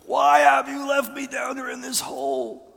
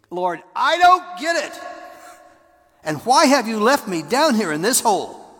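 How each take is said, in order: First: High, loud screaming at God. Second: High, loud anguished plea to God; desperate cry. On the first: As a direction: scream it with all you've got. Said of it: "screamed my guts out". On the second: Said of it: "I did that a couple times". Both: Retold or imitated.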